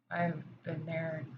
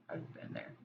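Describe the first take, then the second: First: Said in the usual way. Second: Breathy, emotional, barely voiced; choked near-whisper. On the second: Real, not acted. To viewers, admitting her own past in a near-whisper. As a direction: let the words catch and fall to a whisper. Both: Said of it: "I'm getting emotional".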